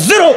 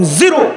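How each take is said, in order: First: zero clipped short with a hard falling tune; weighty zero. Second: Said in the usual way. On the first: Shown as a demonstration. Preacher corrects the crowd, zero with a firm fall. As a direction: drop zero down like a verdict. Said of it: "উচ্চারণ সহি হয় নাই". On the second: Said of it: "দায়িত্ব আমি যেমনে বলি এমনি বলবেন".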